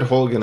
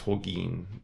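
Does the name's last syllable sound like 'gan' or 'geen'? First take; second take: gan; geen. First: The last syllable sounds like 'gan'. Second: The last syllable sounds like 'geen'. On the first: This is how others said the name. The speaker calls it wrong. "They said Holgan on the show" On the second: This is what the speaker believes is correct. The speaker calls it right. "but I think it's Holgeen"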